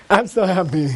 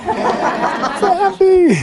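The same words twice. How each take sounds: First: Said in the usual way. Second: Very high, long-drawn squeal of joy; happy lady. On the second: Acted. Teacher voicing the lady reaching nirvana, blissfully happy squeal. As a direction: stretch it out high like an overjoyed lady. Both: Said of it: "it's this happy lady".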